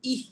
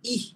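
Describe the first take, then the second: The two takes are said the same way.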